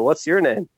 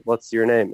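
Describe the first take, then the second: First: "your" raised high in "What's your name?"; echoing question back. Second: Said in the usual way. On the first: Retold or imitated. Man turns the guard's question back on him, stress on YOUR. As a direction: throw it back with YOUR lifted in pitch. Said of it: "And go". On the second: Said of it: "we call police guardas".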